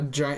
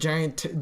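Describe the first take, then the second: First: It is said in a plain standard accent. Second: It is said in a local rural accent. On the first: "there it's not a giant" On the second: "It's like giant"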